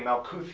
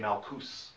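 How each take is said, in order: First: The word ends with a th sound. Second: The word ends with an s sound. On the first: It follows an inherited occultist pronunciation. The speaker calls it wrong. "it's more correct to say Malkus than it is to say Malkuth" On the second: The speaker calls it right.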